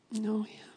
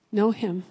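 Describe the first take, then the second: First: "Know him" soft and whispery; hushed exhortation. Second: "Know him" said firmly and louder; firm exhortation. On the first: Same charge repeated in a hush. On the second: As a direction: land "Know him" as a firm, voiced charge. Preacher's firm charge, then hushed repeats. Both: Real, not acted.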